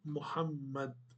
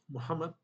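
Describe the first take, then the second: First: The middle m sound is held long, doubled. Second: The middle m sound is short and single. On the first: "o nome correto, Muhammad, tem duas letras M" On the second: "Se você fala Muhammad, ok"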